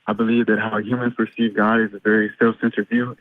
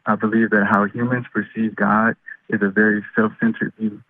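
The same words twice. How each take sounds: First: It is said fast. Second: It is said slowly.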